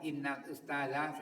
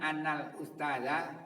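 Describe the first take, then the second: First: The first word begins with an 'i' vowel. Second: The first word begins with an 'a' vowel.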